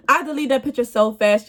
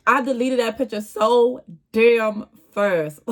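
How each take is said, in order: First: Said through real laughter; laughing. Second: Said in the usual way. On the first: Real, not acted. Laughing at herself over deleting the picture. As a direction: laugh as you repeat it. Repeats the line while laughing.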